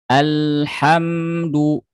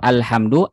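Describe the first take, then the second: First: The l sound is held a moderate length. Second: The l sound is rushed and very short. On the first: The speaker calls it right. "pertengahan saja" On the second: The speaker calls it wrong. "jangan terburu-buru"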